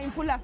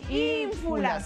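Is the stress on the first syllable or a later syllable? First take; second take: later syllable; first syllable. First: The stress falls on a later syllable. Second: The stress falls on the first syllable. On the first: The speaker calls it wrong. "Porque si no será ínfulas" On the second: The speaker calls it right. "En la I"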